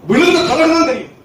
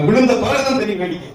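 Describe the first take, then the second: First: விழுந்த thrown up much higher with falling tune; emphatic repeat. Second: Said in the usual way. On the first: Shown as a demonstration. Preacher hammers home the warning to the congregation, raised high. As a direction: hit விழுந்த high and hard, then let it fall.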